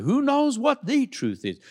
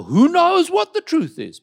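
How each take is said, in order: First: A lightly mocking skeptic asking "Who knows what the truth is?"; mock people's voice. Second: High rhetorical question. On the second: Acted. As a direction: ask "Who knows what the truth is?" much higher and louder.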